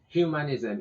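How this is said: The word is said with an English pronunciation. "in English"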